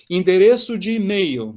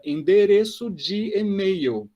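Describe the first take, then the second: First: Said in the usual way. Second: "endereço de e-mail" drawn out syllable by syllable; teacher stretches the Portuguese phrase to show how long it is, slowly articulated. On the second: Shown as a demonstration. Teacher shows a many-part phrase, slowly articulated. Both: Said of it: "ela é articulada".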